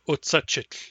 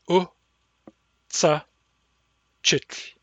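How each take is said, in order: First: The word is said smoothly without breaks. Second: The word is broken into separate syllables.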